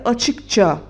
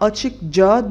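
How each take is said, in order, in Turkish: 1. Ek sert ch sesiyle başlıyor. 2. Ek yumuşak j sesiyle başlıyor. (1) "C sesi de K gibi bir sert ünsüze dönüşüp Ç oluyor ve açıkça diyoruz" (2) "Tabii biz buna açık ca demiyoruz"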